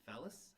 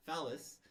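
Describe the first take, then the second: First: "phallus" softly with rising, unsure tune; questioning. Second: "phallus" firmly with falling tune; confirming. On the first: Speaker searching for the medical term, questioning. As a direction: try "phallus" quietly as a question. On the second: Speaker having found the medical term, confirming. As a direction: land "phallus" as a settled answer. Settles on the right word. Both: Real, not acted.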